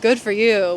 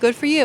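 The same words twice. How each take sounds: First: It is said mockingly and sarcastically. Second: It is said warmly and sincerely. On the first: The speaker is not impressed at all. "not like a very nice thing, like" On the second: The speaker is genuinely happy for the listener. "he meant it in a very sincere way, like"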